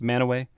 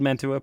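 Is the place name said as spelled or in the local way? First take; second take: local way; as spelled. First: The name is said in the local, shortened way. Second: The name is read out as it is spelled. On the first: "pronounced Manaway" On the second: "Spelled Mantua"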